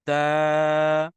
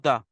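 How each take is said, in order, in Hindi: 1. स्वर एक अलिफ़ की लंबाई तक खींचा जाता है। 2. स्वर छोटा है, खींचा नहीं जाता। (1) "लेकिन दाल अलिफ जबर दा" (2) "अगर मैं कहूँ सिर्फ दाल जबर तो दा"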